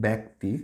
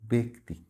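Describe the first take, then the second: First: "ব্যক্তি" with open bæ, bæk-ti; wrong bæ vowel. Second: "ব্যক্তি" with closed e, bek-ti; correct be vowel. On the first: Teacher shows students the mistake, "ব্যক্তি" as bæk-ti. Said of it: "তাহলে ভুল". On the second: Teacher models for students, "ব্যক্তি" as bek-ti. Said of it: "এটার উচ্চারণ হবে এরকম". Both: Shown as a demonstration.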